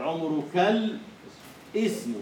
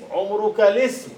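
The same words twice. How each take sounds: First: The article's hamza is pronounced, breaking the link. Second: The article's hamza is dropped and the words link. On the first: It keeps the poem's meter. "هذا قطع ما ينبغي أن يوصل" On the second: It follows the normal rule of the language. "المفروض أن يقول عمرك الاسم"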